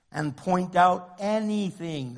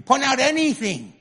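First: Said in the usual way. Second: "anything" pushed high and loud; raised, forceful stress on "anything"; emphatic anything. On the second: Shown as a demonstration. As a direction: hit "anything" hard, insisting on it. Contrasts anything with a few things.

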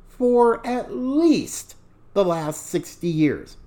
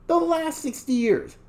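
First: "least" stressed, drawn out slowly. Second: "The last sixty years" repeated higher; higher emphatic repeat. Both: Real, not acted.

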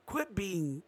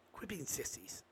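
First: Said in the usual way. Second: "quit being sissies" dropped to a hushed whisper. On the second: Real, not acted. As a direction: whisper "sissies" as if sharing a secret. Repeats the line, then whispers it.

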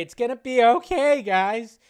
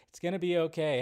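First: Much higher, louder, hammed-up comfort; mock reassurance. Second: Said in the usual way. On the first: Telling the sighing chat it will be fine in a loud, high mock-comfort. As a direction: overplay the soothing for laughs.

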